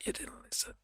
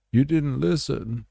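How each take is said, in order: First: A spooky whispered taunt; mock whisper. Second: Higher, louder "didn't" punched as a scolding; mock shout. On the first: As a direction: breathe it out as an eerie whisper. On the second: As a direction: bark the taunt out loud. Repeated taunt, shouted.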